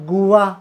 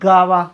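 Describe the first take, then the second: First: The word begins with a separate goo sound. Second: The word begins with a plain gah sound. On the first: "बरेच मुलाला कदाचित गावा किंवा गुवा असे उच्चार करतात" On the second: "बरेच मुलाला कदाचित गावा किंवा गुवा असे उच्चार करतात"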